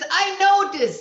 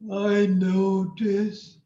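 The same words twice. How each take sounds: First: It is said loudly with a jolt of energy. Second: It is said flatly with little energy.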